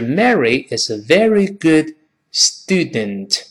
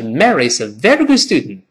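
First: The sentence is spoken slowly and carefully. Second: The sentence is spoken quickly with reduced sounds. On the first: "读慢了是" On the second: "读快了是"

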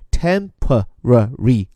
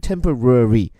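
First: American style, with every syllable said fully. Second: British style, with middle sounds swallowed.

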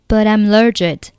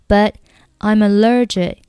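First: The t of 'but' links into 'I'm'. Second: The t of 'but' is silent. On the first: "这边的but 和I'm 以及allergic 可以连读成But I'm allergic" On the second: "那你可以选择but 末尾不发音，直接是I'm 和allergic 的连读"

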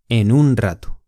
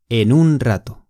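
Both takes have the same delivery.

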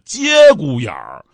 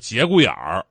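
First: The first syllable has a high level first tone. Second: The first syllable has a rising second tone. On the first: The speaker calls it right. "接读一声" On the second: The speaker calls it wrong. "不是节骨眼儿"

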